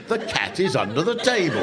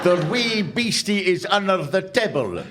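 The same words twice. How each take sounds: First: Said in the usual way. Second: Broad Ulster Scots, wee stressed; mock phrasebook Ulster Scots; Ulster Scots reading. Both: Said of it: "Ulster Scots into English".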